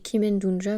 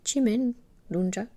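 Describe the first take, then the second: First: The name begins with a hard k sound. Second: The name begins with a ch sound. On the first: The speaker calls it wrong. "en plus je dis Kimen Dunja" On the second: The speaker calls it right. "mais en fait c'est Chimen Dunja"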